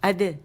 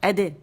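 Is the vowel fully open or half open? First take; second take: half open; half open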